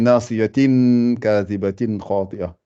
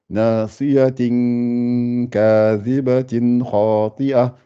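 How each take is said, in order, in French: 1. Le n final se prononce clairement. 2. Le n final est caché, tenu deux temps. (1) "Est-ce qu'on dit le tin ici?" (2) "On fait le ikhfa"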